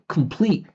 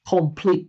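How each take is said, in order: First: The first syllable is short with a reduced vowel. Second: The first syllable has a full, clear vowel. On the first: The speaker calls it right. "I'm saying complete" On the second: The speaker calls it wrong. "He's saying complete"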